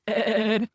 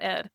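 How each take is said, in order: First: The name is said slowly and drawn out. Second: The name is said short and clipped. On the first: The speaker calls it right. "E E E E E D D D D D D ... It's said properly" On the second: The speaker calls it wrong. "if you just call it Ed"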